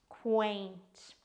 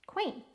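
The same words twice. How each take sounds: First: "quaint" with a long vowel and separate t; slow, careful "quaint"; drawn-out pronunciation. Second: Said in the usual way. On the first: Shown as a demonstration. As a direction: stretch out "quaint" for learners. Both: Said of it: "It sounds like this".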